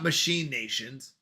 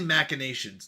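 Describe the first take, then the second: First: The start sounds like the word 'machine'. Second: The start does not sound like 'machine'. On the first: The speaker calls it wrong. "not machine nations" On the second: The speaker calls it right. "It's definitely machinations"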